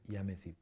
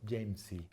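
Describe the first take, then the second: First: The word begins with a Y sound. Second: The word begins with a J sound. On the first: The speaker calls it right. "es yamesi" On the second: The speaker calls it wrong. "no decimos Jamesy"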